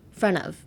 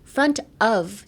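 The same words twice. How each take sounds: First: The word 'of' is reduced to a short 'a'. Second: The word 'of' is said fully, with its f. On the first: The speaker calls it right. "drop the T and change the O F, the of, to A" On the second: The speaker calls it wrong. "front of じゃなくて"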